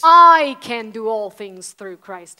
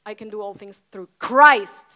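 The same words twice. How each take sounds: First: The stress falls on the word I. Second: The stress falls on the word Christ. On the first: The strength comes from oneself. The speaker calls it wrong. "But when it's about you" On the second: The strength comes from someone else. The speaker calls it right. "it's about him"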